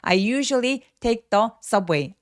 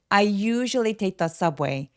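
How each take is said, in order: First: The sentence is broken up with breaks between words. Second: The sentence flows in one breath without breaks. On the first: The speaker calls it wrong. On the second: The speaker calls it right.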